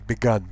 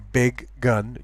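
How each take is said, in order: First: Only one g sound, sounding like begun. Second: Both g sounds are pronounced between the words. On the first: The speaker calls it wrong. "You don't say begun because it would sound like begin" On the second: The speaker calls it right. "You say"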